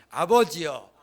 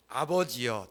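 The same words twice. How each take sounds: First: 아버지여 called out loud and full, falling at the end. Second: Said in the usual way. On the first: Shown as a demonstration. Pastor has the congregation echo the prayer, calling out loud. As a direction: cry out 아버지여 to God for the room to repeat. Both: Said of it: "따라 보겠습니다".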